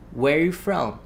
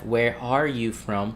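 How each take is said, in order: First: The word 'are' is left out entirely. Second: The word 'are' is pronounced in full. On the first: "when you listen, it's like" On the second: "of course, we have where are you from?"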